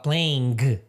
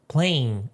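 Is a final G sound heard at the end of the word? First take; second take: yes; no. First: The ending is said with a final G sound. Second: The ending is said without a final G sound. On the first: The speaker calls it wrong. "Você não vai falar playing" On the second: The speaker calls it right. "Não pronuncia o G no final"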